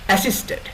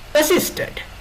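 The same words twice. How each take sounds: First: The second syllable is not stressed. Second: The stress is on the second syllable. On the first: The speaker calls it wrong. "assisted was pronounced as assisted" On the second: The speaker calls it right. "with the stress on the second syllable"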